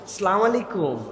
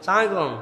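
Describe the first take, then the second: First: Every syllable of the greeting is said in full. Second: The opening is dropped and the words run together. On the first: The speaker calls it right. "সুন্দর না শুনতে?" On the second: The speaker calls it wrong. "বিরাট বিরাট লোকজন দেখবেন এরকম করে সালাম দেয়"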